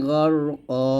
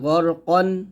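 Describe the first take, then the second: First: The word ends on a lengthened a vowel. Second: The word ends with an added n sound. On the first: "এক জবর স্থানে রেখে আরেক জবর বাদ দিয়ে আমরা পড়বো এরকম" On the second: "প্রত্যেকটা শব্দের শেষে কিন্তু দুইটা জবর আসছে"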